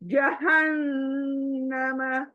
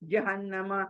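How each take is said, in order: First: The n is held long with a nasal hum. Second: The n is short and said quickly. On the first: The speaker calls it right. "तो हमें गुन्ना करते हुए नून को पढ़ना है।" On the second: The speaker calls it wrong. "We read like this ना, जल्दी जल्दी पढ़ते हैं ना हम, जो कि गलत है।"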